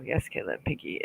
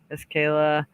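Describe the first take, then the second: First: Breathy whisper, much softer, no voice. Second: Said in the usual way. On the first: Real, not acted. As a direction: read it under your breath, almost silent. Re-reading comment under breath.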